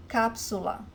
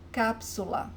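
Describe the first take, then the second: No difference in how they are said.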